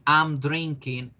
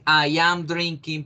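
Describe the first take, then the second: First: I and am are joined into one syllable. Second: I and am are said as two separate words. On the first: "podemos hacer la contracción para hablar más fluido, más natural" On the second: "en vez de decir I am drinking"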